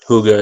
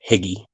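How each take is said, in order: First: The name sounds like Huga. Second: The name sounds like Higgy. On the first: The speaker calls it right. "that's how you pronounce that" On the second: The speaker calls it wrong. "I wanted to say Higgy when I first saw it, but that's not how it's pronounced"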